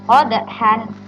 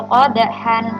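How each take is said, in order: The two takes are said the same way.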